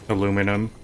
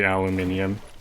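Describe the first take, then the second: First: The word is pronounced as aluminum. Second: The word is pronounced as aluminium. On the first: "I say aluminum" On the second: "I don't say aluminium"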